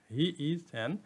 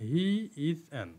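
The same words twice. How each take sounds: The two takes are said the same way.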